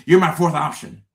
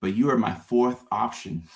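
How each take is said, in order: First: "You're" punched louder and higher, flat and direct; blunt, emphatic restatement. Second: Said in the usual way. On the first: Shown as a demonstration. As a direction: say it straight out, no softening. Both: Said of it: "Just say that".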